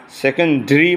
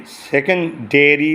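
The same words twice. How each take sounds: First: সেকেন্ডারি squeezed to se-kon-dree; British pronunciation. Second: সেকেন্ডারি with a full -de-ry ending; American pronunciation. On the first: Teacher shows students the British secondary, British pronunciation. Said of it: "সেকেন্ডারি বলে British উচ্চারণ". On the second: Teacher shows students the American secondary, American pronunciation. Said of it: "সেকেন্ডারি বলে সেকেন্ডারি American". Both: Shown as a demonstration.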